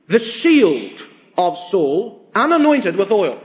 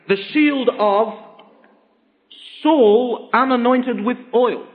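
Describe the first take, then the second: First: It is phrased so the shield is unanointed. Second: It is phrased so Saul is unanointed.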